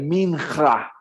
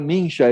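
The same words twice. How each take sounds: First: The middle consonant is a sound foreign to Portuguese. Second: The middle consonant is an ordinary Portuguese sound. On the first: The speaker calls it right. "é mincha" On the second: The speaker calls it wrong. "não é mincha"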